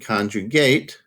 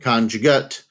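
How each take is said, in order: First: It is said with the verb pronunciation. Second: It is said with the noun pronunciation. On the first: It names the action of conjugating. "conjugate is the verb" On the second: It names a thing that is a conjugate. "conjugate would be the noun version pronunciation"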